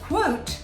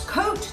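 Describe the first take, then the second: First: It starts with a kw sound. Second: It starts with a plain k sound, like coat. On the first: The speaker calls it right. "but if it's quote, that's right" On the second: The speaker calls it wrong. "If it's coat, that's wrong"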